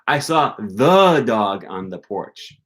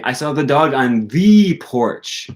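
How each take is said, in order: First: The stress falls on the first the. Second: The stress falls on the second the. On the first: It was a special, particular dog. "not just a dog. It was the dog" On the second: It was a special, particular porch. "Not just any porch, the porch"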